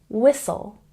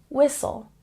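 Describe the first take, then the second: The two takes are said the same way.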